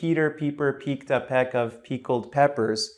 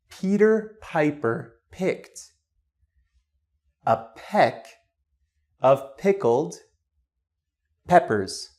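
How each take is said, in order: First: It is said with a Spanish accent. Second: It is said with a standard English accent.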